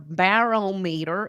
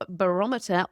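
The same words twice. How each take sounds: First: It is said with an American pronunciation. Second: It is said with a British pronunciation.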